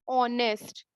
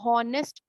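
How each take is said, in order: First: The word begins directly with a vowel sound. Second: The word begins with an audible H sound. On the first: The speaker calls it right. "एच is silence" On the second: The speaker calls it wrong. "बहुत से लोग इसको हॉनेस्ट पढ़ते हैं"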